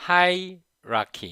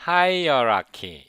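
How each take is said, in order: First: Hierarchy said as ai-ra-ki, no extra vowel; correct pronunciation. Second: Put-on hierarchy drawn out slowly as a-i-a-ra-ki, the old way; old wrong pronunciation. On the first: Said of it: "hierarchy 이렇게 발음해요". (원어민처럼 아이라키로 발음) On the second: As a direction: say hierarchy slowly with an extra a-i-a at the start. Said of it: "hierarchy 이렇게 발음을 했는데". (예전식으로 아이아라키 하고 천천히 발음) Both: Shown as a demonstration.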